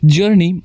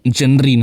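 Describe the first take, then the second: First: It is said as two syllables, 'jur-ni'. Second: It is said as three syllables, 'ja-na-ri'. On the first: The speaker calls it right. "नहीं जर्नी" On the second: The speaker calls it wrong. "जनरी नहीं"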